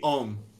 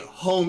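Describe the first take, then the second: First: The word begins without an h sound. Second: The word begins with an h sound. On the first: "they don't say S's and H's" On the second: "it wouldn't be home"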